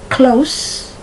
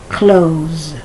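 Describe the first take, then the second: First: The final consonant is a hissing S sound. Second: The final consonant is a buzzing Z sound. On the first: It means near. "Is the S pronounced like the S" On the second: It means to shut. "or is the S pronounced like a Z"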